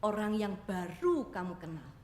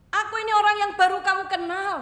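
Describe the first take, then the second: First: Said in the usual way. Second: "orang yang baru kamu kenal" driven home much higher and louder; emphatic repeat. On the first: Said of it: "repeated with emphasis". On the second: Shown as a demonstration. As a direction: hammer the whole phrase, stressing "orang". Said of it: "emphatic repeat of line 91". (penekanan keras pada "orang yang baru kamu kenal")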